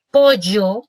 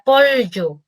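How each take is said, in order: First: Pollo with a y sound, po-yo; yeísta pollo. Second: Pollo with a palatal l, po-llyo; ll as lateral. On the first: Therapist explaining yeísmo, pollo with ll as y. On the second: Therapist contrasting with pollo, ll as palatal l. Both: Shown as a demonstration. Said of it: "lo que nos decía del yeísmo".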